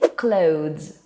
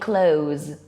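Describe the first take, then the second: First: A th sound is said before the final z. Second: The th sound is dropped before the final z. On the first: "What we should say is clothes" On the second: "Alternatively, we could also say clothes"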